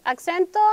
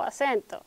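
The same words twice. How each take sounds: First: "acento" with a k sound before the s; English-influenced pronunciation. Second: "acento" with a plain s, no k sound; standard Spanish pronunciation. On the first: Teacher showing the class the English-influenced form, "acento" said ak-sento. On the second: Teacher giving the class the Spanish form, "acento" said a-sento. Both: Shown as a demonstration. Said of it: "si tenemos en inglés, eh, accent".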